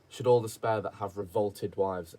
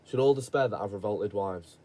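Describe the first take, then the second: First: Every consonant is clearly and carefully articulated. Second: Said in a casual local accent, consonants dropped. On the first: The speaker calls it right. "I need to be able to pronunciate every single letter" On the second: The speaker calls it wrong. "if I said it in my accent"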